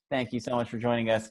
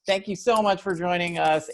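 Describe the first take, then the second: First: Said in the usual way. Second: High, giggly thanks; laughing through the sign-off. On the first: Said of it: "I gotta learn". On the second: Real, not acted. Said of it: "Nope, leaving it in".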